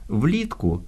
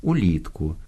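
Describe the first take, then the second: First: Влітку said with a v sound, vlitku; влітку with a v onset, not u. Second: Улітку opening on a full u vowel; улітку with a u onset, not v. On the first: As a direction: start влітку with a clear v. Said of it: "Влітку вимовляємо звук «в»". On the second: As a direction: start улітку with an u sound. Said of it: "Улітку вимовляємо звук «у»". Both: Shown as a demonstration.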